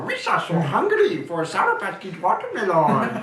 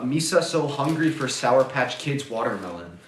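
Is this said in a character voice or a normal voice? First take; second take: character voice; normal voice. First: It is said in a put-on character voice. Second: It is said in the speaker's normal voice. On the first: "there's a difference between that and like" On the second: "I would be totally fine with just going like"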